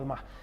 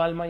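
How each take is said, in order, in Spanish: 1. La palabra termina con una h aspirada. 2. La palabra termina simplemente en la vocal. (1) "ahí como alma" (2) "aquí se queda como alma"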